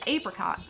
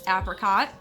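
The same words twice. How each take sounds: First: It is said in a British accent. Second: It is said in an American accent. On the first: "and British English is apricot" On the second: "American English states apricot"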